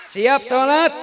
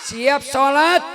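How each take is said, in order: The two takes are said the same way.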